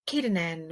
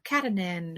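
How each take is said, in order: First: "Katanen" with a long A, like Kate; first syllable as Kate. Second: "Katanen" with a short A, like cat; first syllable as Cat. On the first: Imagined author giving pronunciation options, "Katanen" with long A. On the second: Imagined author giving pronunciation options, "Katanen" starting like cat. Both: Shown as a demonstration. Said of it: "come on his, like, socials and be like".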